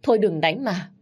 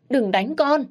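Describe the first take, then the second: First: Crying plea. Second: A high, loud tearful cry; crying plea. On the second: Mother begging the father to stop, high tearful cry. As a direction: beg him to stop hitting her child. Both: Acted. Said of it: "Má tôi cứ khóc và van xin".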